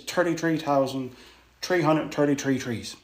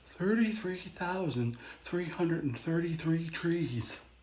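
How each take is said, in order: First: It is said in a broad local Newfoundland accent. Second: It is said in a posher, more mainland accent. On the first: This is how locals normally say it. "the proper way to say that phrase is" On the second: The speaker is trying to sound grand for a visitor. "if you're trying to speak a little bit grand"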